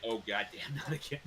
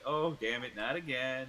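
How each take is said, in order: First: Imitation of unscripted dismay; genuine exasperation. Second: Louder, staged-sounding exasperation; scripted exasperation. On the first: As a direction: say it like it really just happened. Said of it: "It was a genuine". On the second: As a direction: deliver it like a rehearsed tour line. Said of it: "you'd think he said it, like, scripted". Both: Shown as a demonstration.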